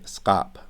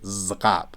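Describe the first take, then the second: First: The word begins with a voiceless s sound. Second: The word begins with a voiced z sound. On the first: The speaker calls it right. "We say skap" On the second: The speaker calls it wrong. "We just never say zkap, because listen to me try to say it"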